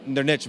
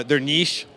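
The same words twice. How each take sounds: First: Niche with short i, ending in tch; niche as "nitch". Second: Niche rhymed with leash; niche as "neesh". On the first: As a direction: make niche rhyme with rich. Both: Shown as a demonstration. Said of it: "however you wanna say it".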